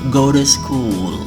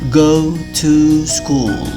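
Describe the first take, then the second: First: The word 'to' is reduced to a schwa. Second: The word 'to' has its full strong vowel. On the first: "Jadinya seperti" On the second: "Bentuk kuatnya"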